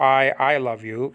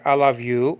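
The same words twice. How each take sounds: First: "I" doubled and pressed for emphasis; emphatic "I, I love you". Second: Said in the usual way. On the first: Shown as a demonstration. Teacher shows the emphatic form of "I love you". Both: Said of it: "in an emphatic way".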